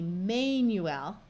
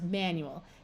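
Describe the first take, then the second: First: The first vowel has a long sound. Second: The first vowel has a short sound. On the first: The speaker calls it wrong. "you might think it would be manual" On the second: The speaker calls it right. "this one is pronounced manual"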